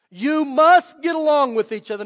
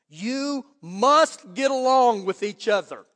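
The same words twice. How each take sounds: First: Louder, "must" hit hard; urgent loud repeat. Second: "must" drawn out, slow and deliberate; slow urgent stress. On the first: Preacher pressing the verse home, loud emphatic. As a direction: say "must" like a command, full voice. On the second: Preacher urging his congregation to get along, slow stress. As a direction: lean on "must", slowly. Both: Shown as a demonstration. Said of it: "as urgently as I can".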